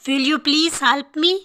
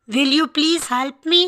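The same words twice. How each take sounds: The two takes are said the same way.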